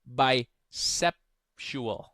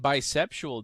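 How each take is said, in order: First: The word is said slowly, drawn out. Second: The word is said at normal speed.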